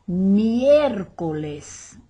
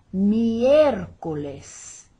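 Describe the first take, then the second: First: "Miércoles" very slow and louder, weight on "Miér"; stress on MIÉR. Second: "Miércoles" slow, loud, "Miér" carrying the weight; stress on MIÉR. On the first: Teacher showing students the accented E in "Miércoles", slowly. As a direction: drag out "Miércoles", hitting the accented E. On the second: Teacher repeating the accented day for students. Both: Shown as a demonstration. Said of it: "For the stress there".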